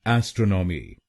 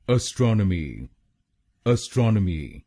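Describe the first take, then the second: First: एस्ट्रोनॉमी with a clear "e" at the start, ɛs-tro-no-mi; the common Indian mispronunciation, ए first; wrong pronunciation. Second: एस्ट्रोनॉमी starting with a short neutral "a", ə-stro-nə-mi; correct pronunciation. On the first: Teacher shows students the common wrong way, pronunciation demo. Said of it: "कैसे बोलते हैं लोग इस शब्द को गलत". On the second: Teacher models the correct word for students, careful demo. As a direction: model the right English sound, ə-STRON-ə-mi. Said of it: "इस शब्द की सही प्रोनाउंसिएशन है". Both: Shown as a demonstration.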